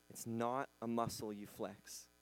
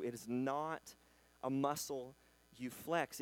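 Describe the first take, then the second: First: Said in the usual way. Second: "It is not", pause, "a muscle", pause, "you flex"; slow emphatic pauses. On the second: Shown as a demonstration. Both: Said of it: "Faith is a lens that you see through".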